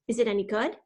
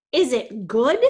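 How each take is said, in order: First: Said in the usual way. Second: Loud, emphatic "good" swooping upward; incredulous echo. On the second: A narrator's reading. Alec echoes Jason's question about Hatchet, loudly incredulous. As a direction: throw the question back, "good" punched and rising.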